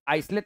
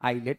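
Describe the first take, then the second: First: An s sound is heard before the t. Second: No s sound is heard before the t. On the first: The speaker calls it wrong. "आइसलेट नहीं पढ़ते हैं उसको" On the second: The speaker calls it right. "क्या पढ़ते हैं? आइलेट"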